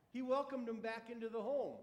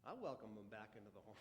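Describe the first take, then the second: First: Said in the usual way. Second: Bitter muttered echo. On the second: Acted.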